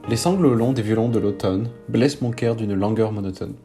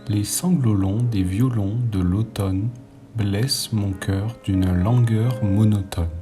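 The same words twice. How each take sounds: First: The line is read at a normal pace. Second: The line is read at a slower pace.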